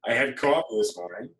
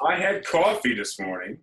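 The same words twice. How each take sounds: First: Said in the usual way. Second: Coffee said high and loud; exasperated. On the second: Shown as a demonstration. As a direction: pitch up on coffee, rising.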